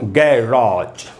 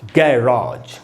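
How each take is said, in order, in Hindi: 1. दूसरा स्वर लंबा 'ah' है। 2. दूसरा स्वर लंबा 'ah' है।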